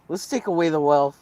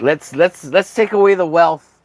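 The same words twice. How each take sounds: First: Said in the usual way. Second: Rally the crowd with a mocking shout; loud mock call. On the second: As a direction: shout it higher and louder. Mocking rant, loud first take.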